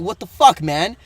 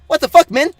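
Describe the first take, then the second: First: It is said in a normal voice. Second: It is said quickly in a high-pitched voice.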